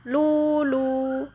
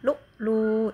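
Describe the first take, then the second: First: The syllables flow together with no glottal catch. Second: A glottal catch separates the two syllables. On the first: Both hamzas are changed. "Imam Hamzah lulu" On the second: Only the final hamza is changed. "Lu lu itu Hisham"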